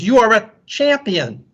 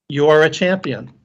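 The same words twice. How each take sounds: First: High-pitched call of praise; mild scream. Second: Said in the usual way. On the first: A narrator's reading. Father calling to the mountains, mild scream. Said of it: "the man screams". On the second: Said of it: "The voice answers".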